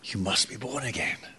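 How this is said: It is said in a tender, longing tone. It is a loving invitation. The speaker calls it right. "It's an invitation. It's a longing"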